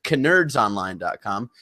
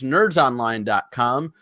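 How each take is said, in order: First: The word nerds begins with a K sound. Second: The word nerds begins with a plain N sound.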